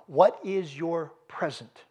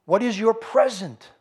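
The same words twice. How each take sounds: First: Drawn out, each word weighed; slow it down and let it sink in; slow, deliberate question. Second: Pushed up and louder, higher; louder, pressing question. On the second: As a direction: hit the question hard at the crowd. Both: Acted. Preacher repeats his key question.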